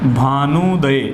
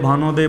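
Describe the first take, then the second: First: The middle vowel is pronounced as long 'oo'. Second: The middle vowel is pronounced as 'o'. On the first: The speaker calls it right. "बड़े ऊ की मात्रा" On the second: The speaker calls it wrong. "भानोदय बोलते रहते हैं, जो गलत है"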